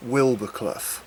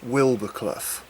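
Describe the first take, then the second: First: Wild and Boar blend into one word, Wilbur. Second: The same.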